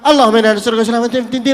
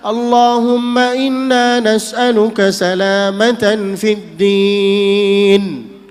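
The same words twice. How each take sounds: First: The words are recited quickly, run together. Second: The words are recited slowly, one by one. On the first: The speaker calls it wrong. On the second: The speaker calls it right. "Kalau baca doa pelan-pelan"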